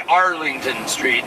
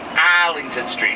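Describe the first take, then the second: First: The R after the first vowel is pronounced. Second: The R after the first vowel is dropped. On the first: The speaker calls it wrong. "don't say" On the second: The speaker calls it right. "remove it and replace it with two H's"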